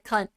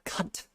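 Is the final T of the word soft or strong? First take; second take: soft; strong. First: The final T is soft and light. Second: The final T is hit hard and strong. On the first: It is a playful, friendly word. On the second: It is a real insult.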